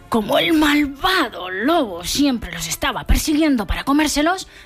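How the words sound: The word malvado is said in a scary voice.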